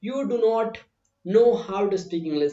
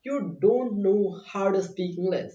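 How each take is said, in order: First: Slow, with "do not" said as two full separate words; full form demo. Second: Slow, careful contracted form don't; slow contracted demo. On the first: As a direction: spell out "do not" in full, slowly. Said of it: "थोड़ा सा अच्छा नहीं लगता है". (धीमे, "do not" पूरा अलग-अलग बोलो) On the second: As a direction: say "don't" as one short word, slowly. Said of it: "मैंने शॉर्ट फॉर्म यूज़ कर लिया". (धीमे, "don't" छोटा करके बोलो) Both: Shown as a demonstration.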